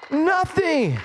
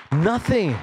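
First: "Nothing" pitched high and drawn out; emphatic repeat. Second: Said in the usual way. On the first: Real, not acted. Preacher insisting nothing hinders worship, emphatic high "Nothing".

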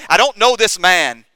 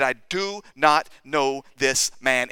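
First: "I don't know this man" loud and high; vehement denial. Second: "do not know this man" slow, word by word; measured, deliberate pledge with each word set apart; earnest assurance. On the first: Peter swears to his accusers, loud vehement denial. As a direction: throw the denial out forcefully, at a quicker clip. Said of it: "We also read that Peter swore". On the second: Peter assures the accusers, slow earnest denial. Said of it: "he was telling these people, "I, I assure you". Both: Retold or imitated.

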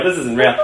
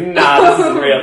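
First: Said in the usual way. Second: Laughing disbelief. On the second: Retold or imitated. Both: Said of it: "I was in stitches laughing".

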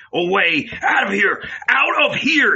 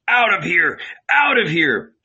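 First: Building to a high, loud shout; furious shout. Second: High, loud frantic screaming; frantic mob scream. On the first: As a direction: drive them out, louder each time. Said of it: "he shouted". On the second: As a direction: scream with the crowd. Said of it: "It too frantically screamed". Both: A narrator's reading.

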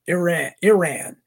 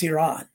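First: Iran with short first vowel and "ran" ending, punched louder; mock the try-hard "ih-RAN" for Iran; would-be classy mispronunciation. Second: Iran with an ee start and open "ahn" ending; plainly corrected "ee-RAHN" for Iran; correct pronunciation. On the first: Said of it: "ones that try to be a class". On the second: Shown as a demonstration. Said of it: "That's how you pronounce it".

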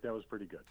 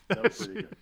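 First: Said in the usual way. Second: Jumps high and louder on the second try; higher and louder. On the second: Retold or imitated. The dad repeating the praise to his son, higher and louder. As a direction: raise it up, impressed.

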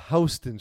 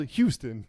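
First: "Houston" as HOW-stun; New York pronunciation. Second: "Houston" as HYOO-stun; Texas pronunciation. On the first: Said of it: "Houston is pronounced". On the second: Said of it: "it's spelled Houston". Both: Shown as a demonstration.

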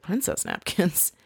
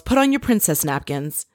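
First: Soft, slow questioning repeat; imitated hushed disbelief, rising at the end; incredulous echo. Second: Said in the usual way. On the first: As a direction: echo it quietly as a baffled question. [name] echoes it in disbelief.

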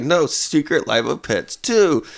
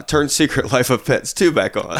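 First: Put-on slow, drawn-out whiny toddler plea; imitating a kid whining for his show. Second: A hint of a toddler asking; plain little-kid demand, barely acted; lightly voiced toddler demand. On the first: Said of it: "he gets in that whiny voice". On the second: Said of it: "Levon ... says".

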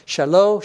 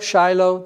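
First: Shelo as sheh-LOH; Hebrew Shelo. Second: Shiloh as SHY-loh, with a long i; English Shiloh. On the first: Preacher showing two forms are the same, Hebrew Shelo. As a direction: say Shelo with a short first vowel. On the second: Preacher showing how English says it, Shiloh as SHY-loh. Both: Shown as a demonstration. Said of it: "That's how you would say it".

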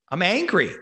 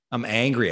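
First: "angry" hit high and loud, real anger; loud, furious "I'm angry". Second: Calmer angry. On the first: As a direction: punch out "I'm angry" higher and louder. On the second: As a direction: say "I'm angry" again, less heated. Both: Real, not acted.

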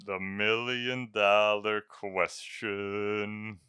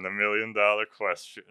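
First: Drawn-out, slow and weighty; slow dramatic. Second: Said in the usual way. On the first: Shown as a demonstration. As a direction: stretch it out for suspense.

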